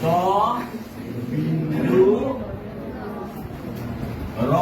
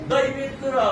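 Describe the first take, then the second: First: The letter name is said in a careful way. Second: The letter name is said in a careless way. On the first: The speaker calls it right. "ক'ব লাগে" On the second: The speaker calls it wrong. "কিবা কিবি কৈ থাকে"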